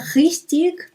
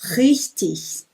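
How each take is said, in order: First: It is said in a southern accent. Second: It is said in a standard accent. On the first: "como no sul" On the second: "eu prefiro ir no clássico mesmo"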